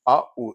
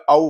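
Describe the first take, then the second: First: आ, then उ, said apart; a separate आ, then a separate उ; two separate vowels. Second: आउ run together as one "au"; आउ as a single joined sound; blended diphthong. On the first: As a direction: split आ उ into two distinct sounds. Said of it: "sequence of vowel sounds है". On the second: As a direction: glide from आ straight into उ in आउ. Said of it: "आउ हो गया". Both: Shown as a demonstration.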